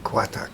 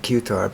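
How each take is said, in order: First: Qatar said as "KWAH-tah"; their pronunciation. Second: Qatar said as "KYOO-tar"; former pronunciation. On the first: Showing listeners how they say it, Qatar as "kwah-tah". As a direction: give Qatar a "kw" start and open final "ah". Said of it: "but they pronounce it". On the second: Recalling his old way of saying it to listeners, Qatar as "cue-tar". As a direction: start Qatar with a "cue" sound. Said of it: "I used to pronounce it". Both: Shown as a demonstration.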